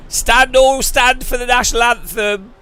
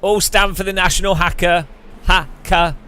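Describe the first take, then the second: First: Higher, louder stadium announcer call; mock announcer. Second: "hacker" said for "anthem", like "HAK-uh"; mispronounced anthem. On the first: Mocking the pre-race anthem call, pompous announcer. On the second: Retold or imitated. Repeating the announcer call with the word mangled to "hacker". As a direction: turn "national anthem" into "national hacker". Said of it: "I always say it wrong".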